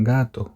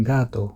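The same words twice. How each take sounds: Both takes have the same delivery.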